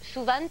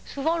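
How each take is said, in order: First: It is said in a Basque French accent. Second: It is said in a Parisian French accent. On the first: "au Pays Basque ... on prononce toutes les consonnes" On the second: "on va commencer par Paris"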